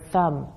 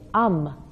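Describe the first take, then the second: First: The opening th sound is pronounced. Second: The opening th sound is left out. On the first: The speaker calls it right. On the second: The speaker calls it wrong.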